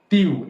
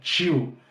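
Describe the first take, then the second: First: The t is plain, with no hiss. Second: The t is hissed, like ch.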